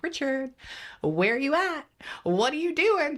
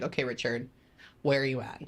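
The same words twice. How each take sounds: First: Much higher, louder, bright eager calling out; happy high calling. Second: Toned-down melancholy call. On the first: Medium retelling her first happy call to the dead father, high excited calling. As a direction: call out to the spirit, excited and light. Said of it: "pinging at, like, the highest 'cause I'm happy". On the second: Medium retelling her calmer second call to the father, subdued. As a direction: call again but calmer and a bit blah. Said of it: "I get a little bit more melancholy". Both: Retold or imitated.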